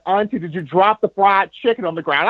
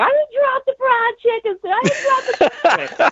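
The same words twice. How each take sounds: First: Said in the usual way. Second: Very high, tearful aunt protesting through sobs; crying aunt. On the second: Retold or imitated. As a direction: insist through tears in a squeaky aunt voice. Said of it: "my auntie is just bawling".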